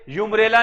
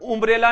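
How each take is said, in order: First: It begins with a 'yoo' sound. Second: It begins with a short 'oo' sound. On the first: "यूम्ब्रेला नहीं बोलेंगे" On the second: "इसको उम्ब्रेला नहीं बोलेंगे"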